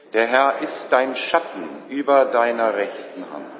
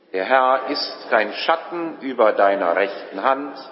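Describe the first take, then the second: The two takes are said the same way.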